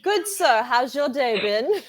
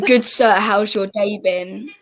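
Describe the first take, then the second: First: Attempted posh British accent, slowing down; copied British accent. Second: Slow, deliberate British model phrase; British accent. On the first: American copying the British host, attempted posh British accent. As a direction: try a posh British accent, drawing out the end. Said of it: "I'll try to copy you". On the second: Brit giving an American a line to copy, slow British accent. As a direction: give a measured, proper British line to copy. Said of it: "give me something to say, and I'll try to copy you". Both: Shown as a demonstration.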